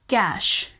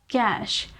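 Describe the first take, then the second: Both takes have the same delivery.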